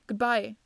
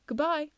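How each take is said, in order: First: Firm goodbye at natural pitch; plain, solid reply; narrator's answering farewell. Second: Higher-pitched, light farewell; a raised, character-voice goodbye; Stamford. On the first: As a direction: return the farewell in an unraised voice. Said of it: "I answered". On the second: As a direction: say a parting word in a lifted voice. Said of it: "Stamford said, as he bade me goodbye". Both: Acted.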